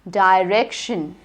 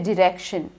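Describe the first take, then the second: First: The first syllable sounds like 'die'. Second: The first syllable has a short 'dih' vowel. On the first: The speaker calls it right. "It is die, I, direction" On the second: The speaker calls it wrong. "Don't say direction"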